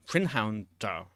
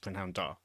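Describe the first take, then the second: First: "Prynhawn da" with the d kept hard; careful Welsh greeting; Welsh demo. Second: Soft "Prynhawn da", plain hard d on "da"; quiet explanation. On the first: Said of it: "so I can say them again". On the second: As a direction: murmur "Prynhawn da" as an example. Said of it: "no hard consonant sound at the end". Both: Shown as a demonstration.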